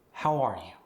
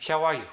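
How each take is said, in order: First: Said in the usual way. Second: Higher, louder "how are you" without the R, Korean accent; Korean-accented greeting, R lost in "are". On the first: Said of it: "we lost the R". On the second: Shown as a demonstration. Coach demonstrating the lost R, Korean accent. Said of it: "we lost the R in the word are".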